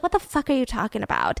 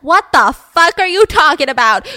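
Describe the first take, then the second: First: Said in the usual way. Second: Loud, higher-pitched acted outburst; outraged disbelief. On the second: Mother demands answers from praising townsfolk, loud outrage. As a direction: burst out in mock outrage, punching the words. Mother repeats her baffled reply, louder.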